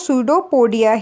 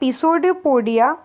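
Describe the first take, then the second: First: The word starts with an S sound. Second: The word starts with a pronounced P sound. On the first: The speaker calls it right. "पी silent है, इसलिए इसलिए हम लोग इसको स्यूडोपोडिया ही बोलेंगे" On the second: The speaker calls it wrong. "इसमें पिसोइडोपोडिया नहीं बोल सकते हम लोग"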